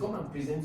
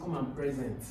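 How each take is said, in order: First: The stress is on the second syllable. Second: The stress is on the first syllable. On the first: It is an action the listener is asked to do. The speaker calls it right. "The stress is on the second syllable" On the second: It names the present time, not an action. The speaker calls it wrong. "I won't say come and present because that's now"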